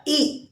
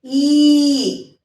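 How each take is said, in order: First: ई said short and light, a quick clipped vowel. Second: ई held long as the long vowel; long ई vowel for the big matra. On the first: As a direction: give ई a brief, short sound. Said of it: "छोटी ई की मात्रा". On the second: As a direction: stretch ई out, long and full. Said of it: "बड़ी की मात्रा". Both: Shown as a demonstration.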